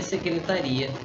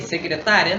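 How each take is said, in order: First: "secretaria" com a força no "ri"; tônica no RI. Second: "secretária" com a força no "tá"; tônica no TÁ. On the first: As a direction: diga "secretaria" apoiando o "ri", sem acento no "ta". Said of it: "Agora você lê secretaria". ("secretaria" com tônica em "ri") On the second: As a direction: diga "secretária" batendo no "tá". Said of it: "como é que você lê?". ("secretária" com tônica em "tá") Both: Shown as a demonstration.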